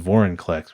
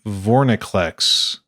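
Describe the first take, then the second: First: A vowel comes before the n sound. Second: The n comes directly after the first syllable. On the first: The speaker calls it right. "but it's Vorinclex, which is much challenging, more challenging to say" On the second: The speaker calls it wrong. "I really want it to be Vorniclex"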